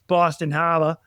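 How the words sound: It is said in a Boston accent.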